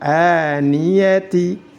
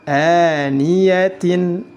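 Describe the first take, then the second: First: The word ends in ti. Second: The word ends in tin. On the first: "Tidak boleh dibaca" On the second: "Tidak boleh dibaca"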